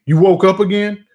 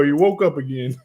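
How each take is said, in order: First: Higher, louder disgusted mock wife; mock exasperated wife; imitating annoyed wife. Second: Said in the usual way. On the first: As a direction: throw it at him like she's fed up. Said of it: "she can't fucking stand to see me". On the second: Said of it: "And here you go".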